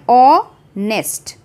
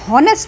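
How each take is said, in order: First: The word starts directly with the vowel. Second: An h sound is pronounced before the vowel. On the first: The speaker calls it right. "हम एच का ह sound नहीं निकाल रहे" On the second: The speaker calls it wrong. "हम हॉनेस्ट नहीं बोल रहे हैं"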